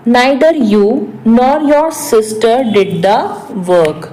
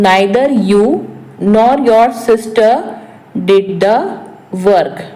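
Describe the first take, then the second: First: Said in the usual way. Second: Slow, with a pause after each phrase; phrase-by-phrase repeat. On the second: Shown as a demonstration. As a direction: break it up for learners to follow. Repeats translation in short pieces. (धीरे, हर वाक्यांश के बाद रुक कर)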